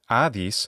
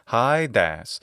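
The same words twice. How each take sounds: First: The name is said in modern Greek pronunciation. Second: The name is said in classical Attic pronunciation. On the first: "in modern Greek pronunciation this god's name is" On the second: "in classical Attic pronunciation it's"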